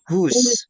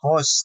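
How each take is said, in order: First: It is said like the word whose. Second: It is said like the word host. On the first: The speaker calls it right. "tapi whose gitu ya" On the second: The speaker calls it wrong. "ini jangan dibaca host"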